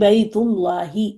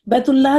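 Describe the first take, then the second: First: The word ends with an added 'i' vowel. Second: The word ends on the final h sound. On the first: The speaker calls it right. "कहेंगी बैतुल्लाही" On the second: The speaker calls it wrong. "बैतुल्लाह नहीं कहेंगी आज से"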